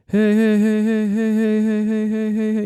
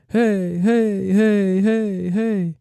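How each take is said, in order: First: High quick heys, fading; fast eighth-note echo. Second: High heys in steady quarter rhythm; quarter-note echo hey. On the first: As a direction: rattle off heys like an eighth delay. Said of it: "one eighth would be like". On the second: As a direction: repeat hey like a quarter delay. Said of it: "one fourth would be like". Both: Shown as a demonstration.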